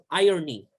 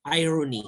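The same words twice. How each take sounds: First: "irony" said as "AI-o-nee", no r sound; pronunciation without r. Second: "irony" said as "AI-ro-nee" with a clear r; local pronunciation. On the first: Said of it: "Irony or irony, it depends". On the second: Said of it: "we pronounce it". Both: Shown as a demonstration.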